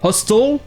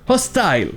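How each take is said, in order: First: The last syllable sounds like 'tel'. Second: The last syllable sounds like 'tile'. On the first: "Ça peut être hostel" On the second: "mais ça peut être aussi hostile. Et cette prononciation hostile semble être un peu plus courante"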